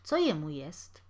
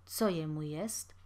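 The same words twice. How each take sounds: First: Uneasy question. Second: Pale repeat, hushed. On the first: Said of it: "niespokojnie dodał". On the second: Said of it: "powtórzył wybladły gospodarz". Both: Acted.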